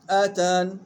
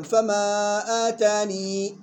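First: آتان closed on a plain nun; stop dropping the ya. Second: Slow chanted فما آتاني ending in long "-nee"; stop keeping the ya. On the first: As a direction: end آتان on "n", no "ee". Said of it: "الصحيح حذف الياء". (آتان بحذف الياء وقفًا) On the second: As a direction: draw out آتاني to a full final ya. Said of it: "الأول إثبات الياء". (فما آتاني بإثبات الياء وقفًا) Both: Shown as a demonstration.

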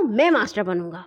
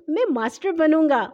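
First: Put-on firm bigger-boy claim; mildly bossy declaration; firm insistence. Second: Put-on higher, eager little-boy voice; pleased child piping up; happy. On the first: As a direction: state it as the boss, settling it. Bully claims the role for himself. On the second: A narrator's reading. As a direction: claim the role gladly. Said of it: "ہاشم خوش ہو کر بولا".

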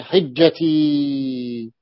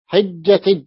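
First: Said in the usual way. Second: حجتج with a hard j sound at the end; حجتج pronounced hajjatij; dialect jim for ya. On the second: Shown as a demonstration. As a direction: say حجتج, ending on j not ya. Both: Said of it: "يعني حجتي".

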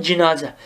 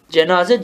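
First: "cinaze" with an i in the first syllable; first vowel i. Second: "Cenaze" with an e in the first syllable; first vowel e. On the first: Teacher showing the second of two readings, "cinaze" with i. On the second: Teacher showing the first of two readings, "Cenaze" with e. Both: Shown as a demonstration. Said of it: "İki türlü".

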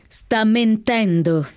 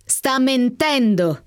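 First: Very slow, relishing each syllable of "Sta mentendo"; slow, gloating accusation; savoring the words. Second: Very slow and higher, relishing "Sta mentendo" once more; slow, pitched-up gloating repeat; savoring, higher. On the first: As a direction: draw out "mentendo" as if tasting it. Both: A narrator's reading. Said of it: "pronunciando le parole come se le gustasse".

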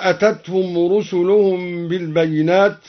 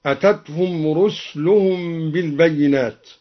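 First: Said in the usual way. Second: "رسلهم" as ruslu-hum; vowelless sin. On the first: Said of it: "قرأ الدوري بإسكان السين". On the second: Shown as a demonstration. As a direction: drop the vowel after s in "رسلهم". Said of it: "قرأ الدوري بإسكان السين وهي لغة هكذا". ("رسلهم" بإسكان السين)

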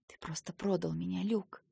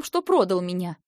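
First: Softer, bitter hush; quietly. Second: Louder, accusing; angry accusation. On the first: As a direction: say it quietly, hurt. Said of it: "тихо сказала я". (тихо, с горечью) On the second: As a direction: throw the betrayal at him. Sister confronting brother. (громкий упрёк) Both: Acted.

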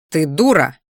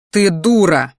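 First: A louder "Ты дура?" asked as a question. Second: Louder "Ты дура!" stated firmly, falling hard on "дура"; flat statement. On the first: Brother testing the words on his sister, questioning. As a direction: ask "дура" with a dropping tone, doubtful. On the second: Brother correcting himself to his sister, firm statement. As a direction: declare "дура" as plain fact. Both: A narrator's reading. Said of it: "Нет, не так".

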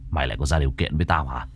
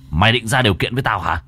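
First: Lower, fast, quieter threat; angry master. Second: Angry master. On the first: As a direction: spit it out fast in cold anger. (giọng thầy trầm, nhanh, giận dữ) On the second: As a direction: press the threat harder. (giọng thầy nhanh, gắt hơn) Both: Acted. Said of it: "máu đã dồn lên não".

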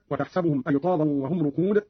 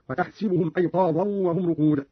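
First: Said in the usual way. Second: وتحسبهم as "wa tahsibuhum"; Qalun's i after sin. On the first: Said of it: "قرأ قالون بكسر السين". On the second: Shown as a demonstration. Teacher demonstrating Qalun's reading, وتحسبهم with "si" for "sa". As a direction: put a short i on the sin in وتحسبهم. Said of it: "قرأ قالون بكسر السين هكذا".

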